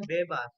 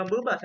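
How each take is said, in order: First: "bebas" with a clear, full "é"; correct e in bebas. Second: "bebas" with a schwa in the first syllable; wrong vowel in bebas. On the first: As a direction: open the first vowel of "bebas" as "bé-bas". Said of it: "seperti kita baca kata bebas". ("bebas" dengan é taling yang jelas) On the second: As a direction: reduce the e of "bebas" to "uh". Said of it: "bukan bebas, kita baca bebas". ("bebas" dengan e pepet di suku pertama) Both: Shown as a demonstration.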